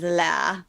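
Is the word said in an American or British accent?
British. It is said with a British non-rhotic vowel. "the way Mary Berry says"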